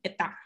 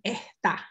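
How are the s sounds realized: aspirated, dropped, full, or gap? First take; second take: dropped; aspirated. First: The s sounds vanish with no gap left. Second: The s sounds become breathy h-like friction. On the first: "there's no space, it's just altogether está" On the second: "you only hear the friction"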